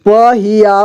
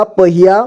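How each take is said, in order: First: पहिया as प-हि-या; syllable by syllable. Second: Said in the usual way. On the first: Shown as a demonstration. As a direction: sound out पहिया in three parts. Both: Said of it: "एक ही बार में पढ़ेंगे".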